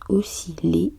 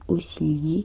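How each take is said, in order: First: Its ending does not rhyme with 'vriller'. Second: Its ending rhymes with 'vriller'. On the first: The speaker calls it right. "se prononce osciller" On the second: The speaker calls it wrong. "et non osciller qui aimerait avec vriller"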